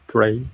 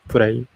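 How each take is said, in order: First: The word begins with an R sound. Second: The same.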